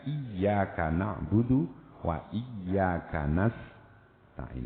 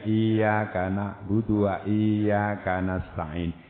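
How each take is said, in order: First: The y sound is pressed and held as double. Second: The vowel is stretched long instead of doubling y. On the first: The speaker calls it right. "Harus tekan" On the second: The speaker calls it wrong. "tidak menjadi tasdid, itu menjadi mat. Bacaan panjang"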